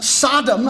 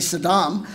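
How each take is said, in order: First: The name sounds like the biblical city Sodom. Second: The name does not sound like Sodom. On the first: Other people say it this way. The speaker calls it wrong. "people like Ted Koppel and others uh, say" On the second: The speaker says it this way. The speaker calls it right. "I say Saddam"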